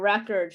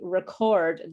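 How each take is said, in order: First: The stress is on the first syllable. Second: The stress is on the second syllable. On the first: It is a noun naming a thing. "pronounced with the the stress in the first position, the first syllable" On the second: It is a verb naming an action. "the the word stress is in a different place"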